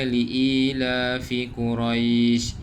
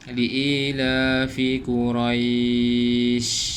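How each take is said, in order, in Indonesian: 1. Vokal sebelum sh terakhir dibaca pendek. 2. Vokal sebelum sh terakhir dibaca panjang. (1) "dibaca dengan kadar dua harakat" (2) "Kalau empat panjang sikit lah"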